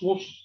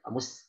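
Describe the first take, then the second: First: The s sound is thick, like sh. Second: The s sound is thin and breathy. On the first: The speaker calls it wrong. "jangan mus mus. Nah, itu ketebalan" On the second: The speaker calls it right. "ditipiskan, sempurnakan dengan uh, roh hams pada sin"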